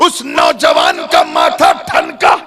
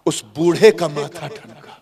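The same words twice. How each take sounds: First: Loud, slow, ringing announcement; dramatic exclamation. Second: Said in the usual way. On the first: A narrator's reading. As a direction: proclaim नौजवान का माथा ठनका at full force. Loud take, then subdued counterpart. (ज़ोरदार, खिंचा हुआ ऐलान)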